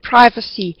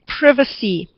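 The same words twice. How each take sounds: First: The word is said with an American pronunciation. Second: The word is said with a British pronunciation. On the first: "I think Americans would say the word privacy" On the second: "from the British English, we would say privacy"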